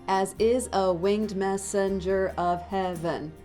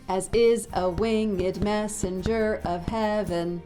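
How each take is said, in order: First: Winged is said as one syllable. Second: Winged is said as two syllables. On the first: The speaker calls it wrong. "that's ten syllables, but things are being stressed improperly" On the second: The speaker calls it right. "could become winged... that fixes the stressing of messenger"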